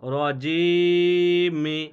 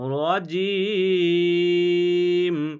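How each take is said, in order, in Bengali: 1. শব্দটি হ্রস্ব 'i' স্বরধ্বনি দিয়ে শেষ হয়। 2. শব্দটি খাঁটি 'm' ধ্বনি দিয়ে শেষ হয়। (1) "মিম জের মি" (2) "থামতে গেলে আপনাকে কি করতে হবে? রজিম"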